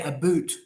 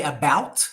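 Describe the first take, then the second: First: About said as a boot, oo vowel; Canadian a boot. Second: Said in the usual way. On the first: Shown as a demonstration. Tutor showing how Canadians say a boot. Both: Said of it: "they don't say about, they say a boot".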